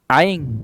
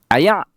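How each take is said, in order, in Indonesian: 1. Diucapkan dengan logat dialek Terengganu. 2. Diucapkan dengan logat dialek Kedah. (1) "kalau orang Terengganu sebut air" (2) "kalau orang Kedah sebut air"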